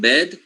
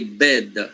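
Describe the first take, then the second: First: The word ends cleanly on the d sound. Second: A short vowel is added after the final d. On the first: "instead of saying bed" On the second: "they say bed"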